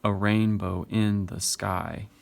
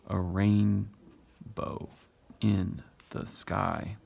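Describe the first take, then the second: First: "A rainbow in the sky" read slowly as one connected line; poem's steady beat. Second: "A rain / bow in / the sky", very slow with pauses between feet; split into metrical feet. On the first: Teacher showing the rhythm continues, "A rainbow in the sky" in one slow measured line. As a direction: read "A rainbow in the sky" unbroken, with a slow short-long lilt. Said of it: "This continues on".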